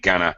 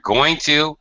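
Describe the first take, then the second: First: The words are run together and reduced. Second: Both words are said in full, unreduced.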